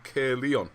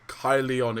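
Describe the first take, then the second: First: The name is said without the North Walian pronunciation. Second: The name is said with the North Walian pronunciation.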